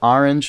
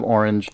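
First: It uses a New York pronunciation. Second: It uses a Californian pronunciation.

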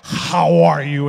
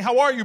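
First: It is said with a heavy breathy huff. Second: It is said in a normal voice.

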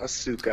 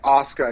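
First: The middle u sound is pronounced. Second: The middle u sound is silent. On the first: The speaker calls it wrong. "not Asuka" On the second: The speaker calls it right. "Just remember the U is silent"

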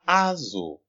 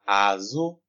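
First: The word has a different tone pattern. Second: The word has a low tone then high tone. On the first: It has the other meaning of the word. "the other meaning of it is Azo" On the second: It means back. "Low tone and high tone"

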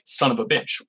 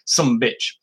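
First: It is said as four separate words. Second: It is clipped to two syllables, sumbitch.

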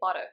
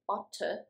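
First: It is said in an American accent. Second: It is said in a British accent. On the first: "but Americans say butter" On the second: "British English would say butter"

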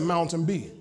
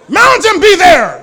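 First: It is said calmly and quietly. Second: It is shouted loudly.

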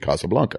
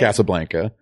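First: It has a Spanish pronunciation. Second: It has a nasal, Americanized pronunciation. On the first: "the technically correct Spanish pronunciation" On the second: "nasal it up and Americanize it"

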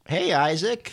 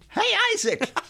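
First: The greeting sounds flat and low-energy. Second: The greeting sounds upbeat and energetic.

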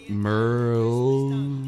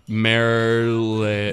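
First: The name ends cleanly with no added vowel. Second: The name ends with an added vowel sound. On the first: The speaker calls it right. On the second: The speaker calls it wrong.

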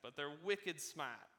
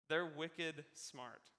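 First: It is said in an attempted Boston accent. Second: It is said in the speaker's ordinary accent.

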